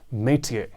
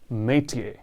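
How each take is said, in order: The two takes are said the same way.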